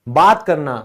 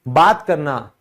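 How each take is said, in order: Both takes have the same delivery.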